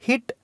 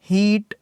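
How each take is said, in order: First: हिट with a short, quick i; short vowel. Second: हीट with a long, held ee; long vowel. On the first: Teacher drilling word pairs for students, short vowel. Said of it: "short sound है". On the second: Teacher drilling word pairs for students, long vowel. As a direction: stretch the ee in हीट. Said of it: "इसका sound long है". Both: Shown as a demonstration.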